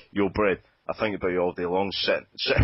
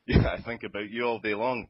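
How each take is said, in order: First: Broad Glaswegian rap delivery; Glaswegian accent. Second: Broad Glaswegian rap restart; Glaswegian accent. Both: Acted. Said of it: "in a broad Glaswegian accent".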